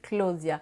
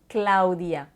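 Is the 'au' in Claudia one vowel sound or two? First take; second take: one vowel; two vowels. First: The 'au' is said as a single vowel. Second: The 'a' and 'u' are said separately. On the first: "la façon francophone de dire mon nom" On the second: "le A et le U ne sont pas prononcés comme une seule syllabe"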